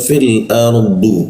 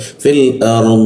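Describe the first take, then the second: First: The phrase ends with a short vowel sounded. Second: The phrase ends on a consonant, vowel dropped. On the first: The reciter carries on to the next word. "kalau dihidupkan" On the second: The reciter stops at this word. "kalau dimatikan"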